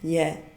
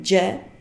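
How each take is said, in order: First: The letter starts with a y sound. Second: The letter starts with a j sound. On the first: This is how Czech speakers say it. "kami bilang Y" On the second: This is how Indonesian speakers say it. "kalian bilang J"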